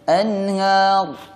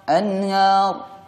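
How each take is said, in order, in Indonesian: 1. Bunyi r di akhir terputus tiba-tiba. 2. Bunyi r di akhir terputus tiba-tiba.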